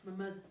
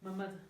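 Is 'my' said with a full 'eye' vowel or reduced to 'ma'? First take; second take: reduced; reduced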